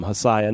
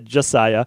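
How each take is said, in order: First: The name begins with an H sound. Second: The name begins with a J sound. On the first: The speaker calls it wrong. "I mispronounced his name" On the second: The speaker calls it right. "not uh"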